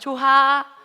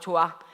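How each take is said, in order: First: An H sound is heard in the middle. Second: No H sound is heard in the middle. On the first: The speaker calls it wrong. "아니지" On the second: The speaker calls it right. "히읗 어디 갔어? 없어졌어"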